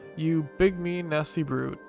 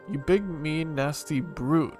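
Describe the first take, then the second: First: The word brute gets no extra stress. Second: The word brute gets strong extra stress.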